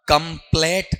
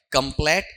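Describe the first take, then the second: First: "कंप्लीट" read as one word with an "ay" vowel, rising; word read whole. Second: "कंप्लीट" with an open, pure "eh" vowel; opened-up pronunciation. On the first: Teacher asking students what was formed, word read whole. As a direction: say "कंप्लीट" as "kum-playt", pitched up. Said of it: "ये क्या बना". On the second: Teacher showing students the monophthong, opened-up pronunciation. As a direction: say "कंप्लीट" as "kum-plett", one pure vowel. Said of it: "खोल के बोलूँ ना". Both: Shown as a demonstration.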